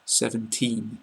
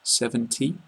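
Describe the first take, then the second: First: SEVENTEEN with a lengthened EE and a clear final N; long vowel, clear N. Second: SEVENTY ending on a short, quick EE; short final vowel. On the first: Teacher saying pronounce it clearly, long EE and N in SEVENTEEN. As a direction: hold the EE in SEVENTEEN, then finish on N. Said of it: "make the sound a lot longer and finish with the N". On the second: Teacher showing the shorter end sound, short EE in SEVENTY. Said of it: "the sound at the end is a lot shorter". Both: Shown as a demonstration.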